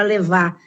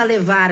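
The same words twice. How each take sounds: First: Levar with the final r dropped, like leva; everyday levar. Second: Levar with the final r sounded clearly; careful levar. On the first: Teacher showing how Brazilians swallow the r in levar, casually. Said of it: "a gente fala levar". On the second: Teacher showing the full levar in a diction lesson, carefully. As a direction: say levar ending crisply on r. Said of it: "a gente não fala levar". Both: Shown as a demonstration.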